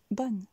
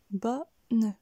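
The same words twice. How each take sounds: First: Said in the usual way. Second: BO a little up, NE back down, in two beats; split, up then down. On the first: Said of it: "Répétez-le". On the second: Shown as a demonstration. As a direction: bonne broken into bo and ne. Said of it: "puis redescend".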